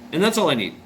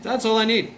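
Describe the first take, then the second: First: Said in the usual way. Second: Much higher, stress on all in That's all I need; emphatic. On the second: Real, not acted. Son tells viewers stories are enough, emphatic high insistence. Repeated closing line.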